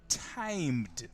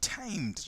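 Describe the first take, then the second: First: The M sound is dropped from the word. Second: The M sound is clearly heard in the word. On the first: The speaker calls it wrong. "my goodness, the M disappeared" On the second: The speaker calls it right. "T I M E D, timed, right?"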